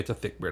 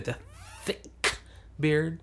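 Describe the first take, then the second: First: The consonants are soft and slurred. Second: The consonants are sharply enunciated. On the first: The speaker calls it wrong. "I would never say" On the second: The speaker calls it right. "Get those consonants"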